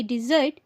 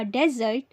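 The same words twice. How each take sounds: First: "डिजर्ट" as di-ZURT, the sweet; distinct pronunciation. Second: "डेजर्ट" as DEZ-urt, the sandy place; distinct pronunciation. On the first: Teacher contrasting sweet with desert, "डिजर्ट" as di-ZURT. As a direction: begin "डिजर्ट" with di, then ZURT. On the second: Teacher contrasting desert with sweet, "डेजर्ट" as DEZ-urt. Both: Shown as a demonstration. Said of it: "दोनों का उच्चारण अलग-अलग होता है".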